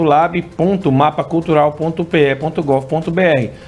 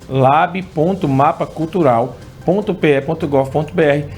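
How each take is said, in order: First: The address is read at a normal pace. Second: The address is read very slowly.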